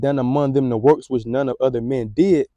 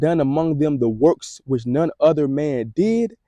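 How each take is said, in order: First: It is read at an ordinary, quicker pace. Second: It is read slowly and deliberately.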